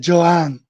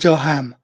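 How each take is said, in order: First: No h sound is heard in the middle. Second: An h sound is heard in the middle. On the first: The speaker calls it right. "the age in Portuguese is mute, silent" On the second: The speaker calls it wrong. "not Johan"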